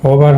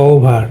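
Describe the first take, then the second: First: ওভার with a short single o; common mispronunciation. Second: ওভার with a gliding diphthong o-u; correct pronunciation. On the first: Teacher rejects the usual form for students, common mispronunciation. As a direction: say ওভার with no glide on the o. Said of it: "ওভার হবে না". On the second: Teacher gives students the right form, correct pronunciation. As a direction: draw out the first syllable of ওভার as "ou". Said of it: "এটা হবে ওভার". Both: Shown as a demonstration.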